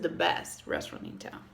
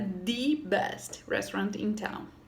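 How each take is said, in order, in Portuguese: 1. O artigo 'the' é falado de forma simples, sem ênfase. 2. O artigo 'the' é falado com muita ênfase.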